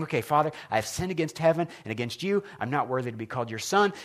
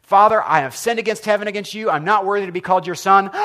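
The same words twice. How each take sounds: First: Quietly running lines to himself; rehearsing under his breath. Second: Raised, urgent confession to the father; pleading apology. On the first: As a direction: practice the apology softly, just for yourself. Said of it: "He's practicing". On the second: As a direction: blurt it out louder, pleading. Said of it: "And the son says". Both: Retold or imitated.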